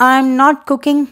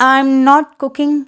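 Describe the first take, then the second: The two takes are said the same way.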